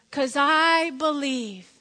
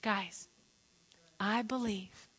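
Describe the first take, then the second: First: Slow, strong "I believe"; drawn-out, confident "I believe"; emphatic declaration. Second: Hushed, soft "I believe"; soft, earnest aside; quiet sincerity. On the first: Retold or imitated. Story's declaration of trust. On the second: Real, not acted. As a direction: bring it right down for the congregation. Turns quietly to congregation.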